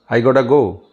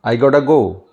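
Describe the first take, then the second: First: The middle words blend into one reduced word. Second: The same.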